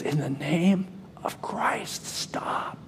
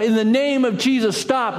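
First: Slow, breathless whisper of last words; faint whisper, fading away on stop; dying whisper. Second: Lone voice crying out against the crowd. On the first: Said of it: "a whisper could be heard". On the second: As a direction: shout it down into the ring. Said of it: "And he cries out". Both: Acted.

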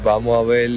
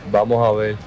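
No difference in how they are said.

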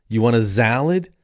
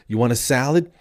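First: "salad" pronounced "zalad". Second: Said in the usual way. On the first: Acted. Offering the restaurant's item, "salad" begun with Z. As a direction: buzz the first sound of "salad" as Z. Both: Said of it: "they put a Z in front of everything".

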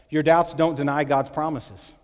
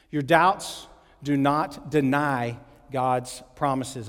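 First: Said in the usual way. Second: Very slow, word by word; slow emphatic repeat. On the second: Shown as a demonstration. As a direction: spell out the point slowly, pausing between phrases. Point repeated slowly for note takers.

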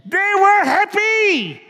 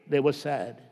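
First: High, slow, bright and joyful; happy. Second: Lower, softer, sorrowful drop; sad. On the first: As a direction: lift it up with joy. Fable riders find precious stones. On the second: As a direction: let it sink into sadness. Contrast after happy riders. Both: Acted.

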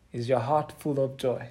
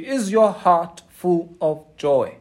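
First: Softer repeat. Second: Slow, leaning on your; stressed question. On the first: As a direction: lower and quieter, leaning on heart. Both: Real, not acted.

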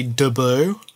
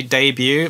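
First: "debut" slowed, as Australians say it, "duh-BOO"; Australian pronunciation. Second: Said in the usual way. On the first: Shown as a demonstration. Wife mimics husband's Australian word, "debut" as "duh-BOO". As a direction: say "debut" with a reduced first vowel and no y-glide, "duh-BOO". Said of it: "they say debut". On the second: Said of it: "Australians don't say debut".

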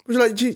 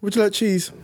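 First: Higher polite waiter offer. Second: Waiter voice. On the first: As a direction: ask like an eager waiter. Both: Retold or imitated. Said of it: "doing the faces".

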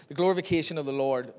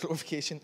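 First: Said in the usual way. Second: Chuckled "glorification?"; laughing at the word. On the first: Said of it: "I think it is". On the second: Real, not acted. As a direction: laugh while repeating "glorification". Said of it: "Is that even a word".

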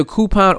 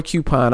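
First: "coupon" opening like coo; "coupon" as KOO-pon. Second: "coupon" opening like cue; "coupon" as KYOO-pon. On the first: Host shows first pronunciation, "coupon" as KOO-pon. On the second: Host shows second pronunciation, "coupon" as KYOO-pon. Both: Shown as a demonstration. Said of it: "you can say either coupon or coupon".

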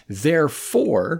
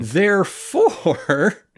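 First: Slow, higher-pitched THEREFORE, falling at the end; drawn-out, falling "Therefore"; mock deduction. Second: Very slow, high THEREFORE, rising at the end; hammed-up, rising "therefore"; grand mock deduction. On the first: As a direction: declare "Therefore" like a pompous logician. Mock-logical deduction, said twice, building. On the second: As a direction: stretch "therefore" out, pitched way up. Same word repeated more grandly.

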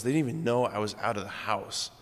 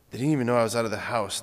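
First: Said in the usual way. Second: Rushed retelling of "They didn't even know I was out of the house"; quick second take of the line; fast repeat. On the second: Retold or imitated. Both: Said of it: "he goes".

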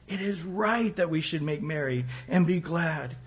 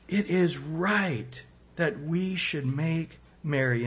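First: Said in the usual way. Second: Slow reading. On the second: Shown as a demonstration. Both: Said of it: "In Luke fifteen thirty-two".

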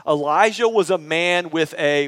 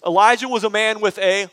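First: Said in the usual way. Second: Higher-pitched, emphatic prompt left hanging; prompting again. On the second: Shown as a demonstration. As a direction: prompt the crowd more insistently, pitched up. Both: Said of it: "Let me prompt you again".

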